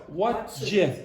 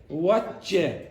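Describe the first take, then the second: The two takes are said the same way.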